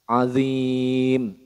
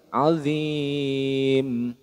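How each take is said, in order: First: The long vowel is held for one count. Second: The long vowel is held for two counts. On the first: "itu satu alif" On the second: "Kalau dua alif"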